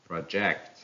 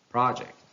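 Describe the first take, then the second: First: "project" as pro-JECT; stress on second syllable. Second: "project" as PRO-ject; stress on first syllable. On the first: Teacher reading a verb, "project" stressed on JECT. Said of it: "stress falls on the second syllable". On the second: Teacher reading a noun, "project" stressed on PRO. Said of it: "stress on the first syllable". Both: Shown as a demonstration.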